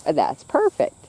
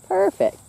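First: Said in the usual way. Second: "Perfect" jumps up high, sing-song praise. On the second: Real, not acted. Owner praises her filly with a high "Perfect". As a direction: squeal "Perfect" high for the horse. Praising the horse, much higher.

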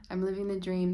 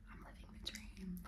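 First: Said in the usual way. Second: Hushed, breathy self-whisper. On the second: Acted. Whispering to myself every night, whispered. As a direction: whisper it privately, very soft. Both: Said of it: "whisper to myself every night".

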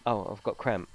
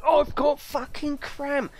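First: Said in the usual way. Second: High, slow and dramatic moan; milk the cramp for all it's worth; exaggerated complaint. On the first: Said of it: "My wife can go". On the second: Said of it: "I'm a bit exaggerated with everything I do".

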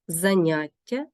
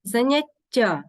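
First: Заняття as заНЯття; stress on second syllable. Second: Заняття as заняТТЯ; stress on last syllable. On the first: Teacher meaning a hobby, заняття stressed on НЯ. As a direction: lean on НЯ in заняття. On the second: Teacher meaning a lesson, заняття stressed on ТТЯ. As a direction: push the final ТТЯ of заняття. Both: Shown as a demonstration. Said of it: "Також треба запам'ятати".

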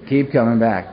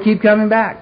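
First: Lower, dry mocking echo of "Keep coming back"; sarcastic repeat. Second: Higher, upbeat imitation of a friendly member; a hint of a chirpy old-timer welcoming a newcomer; cheery newcomer greeting. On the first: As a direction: throw the slogan back with sarcasm. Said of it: "I thought, "Oh, beautiful". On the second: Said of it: "he looked at me and said".

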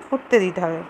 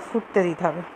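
Both takes have the same delivery.

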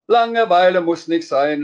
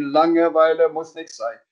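First: Chanted loud and high, banging out the beat; loud, high, sing-song children's chant. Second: Sung chant. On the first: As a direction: sing it out like a kid drumming on a pot. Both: Acted. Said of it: "und begann sehr laut zu singen".

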